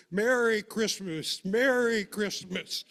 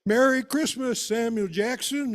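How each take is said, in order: First: Higher, slow, drawn-out cheer; joyful holiday call. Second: Much higher and louder holiday shout; yells out. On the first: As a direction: call out the greeting happily from the wagon. Papa calling from the wagon. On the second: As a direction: belt the greeting across the yard to the neighbour. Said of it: "Papa yells out". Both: Retold or imitated.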